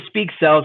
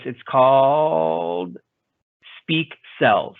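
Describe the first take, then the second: First: Said in the usual way. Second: Slow, drawn-out robot voice. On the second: Pretend. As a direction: read it like a computer speaking. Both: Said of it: "my fake robotic voice".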